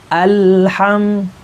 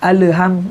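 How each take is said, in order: First: The l is held steady without a bounce. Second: The l is released with a bouncing sound. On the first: The speaker calls it right. "yang benar" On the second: The speaker calls it wrong. "itu namanya mantul"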